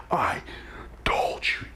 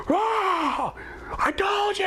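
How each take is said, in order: First: Whispered. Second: High triumphant scream. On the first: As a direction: whisper it close to her face. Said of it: "I cuss in her mouth". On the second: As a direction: scream it high in her face. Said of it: "screaming in her face". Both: Retold or imitated.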